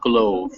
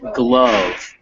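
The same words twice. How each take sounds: First: The vowel is long, rhyming with grove. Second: The vowel is short, rhyming with love. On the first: The speaker calls it wrong. "not glove" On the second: The speaker calls it right. "not pronounced like it had a silent e"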